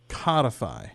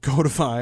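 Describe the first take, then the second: First: The first syllable rhymes with 'cod'. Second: The first syllable rhymes with 'code'. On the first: The speaker calls it wrong. "I tend to pronounce it codify" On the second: The speaker calls it right. "from the root code, not cod"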